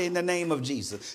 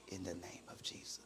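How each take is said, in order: First: It is said in a normal voice. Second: It is whispered very quietly.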